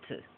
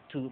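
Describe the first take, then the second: First: "t" whispered short, the vowel shrunk to schwa; reduced weak form. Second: "to" with a full clear vowel, the wrong way; full strong form. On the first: Teacher showing the right weak form of to, very soft. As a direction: clip "to" down to a breathy weak t. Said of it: "but t". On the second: Teacher showing the wrong full form of to. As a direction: say "to" fully as a careful learner would. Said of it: "no diríamos to". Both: Shown as a demonstration.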